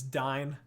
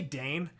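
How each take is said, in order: First: The vowel sounds like 'eye' as in dine. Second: The vowel sounds like 'ay' as in day. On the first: The speaker calls it right. "I correct myself because I think it's Dine" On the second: The speaker calls it wrong. "so I say Dane"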